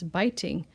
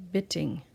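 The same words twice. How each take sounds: First: BITING with a long I, as in BITE; BITING, first syllable rhyming with kite; long I sound. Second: BITTING with a short I, as in BIT; wrong short vowel. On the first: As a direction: say BITING with the vowel of EYE. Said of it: "not bitting". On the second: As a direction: say BITTING to rhyme with sitting. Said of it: "So we know it's biting". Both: Shown as a demonstration.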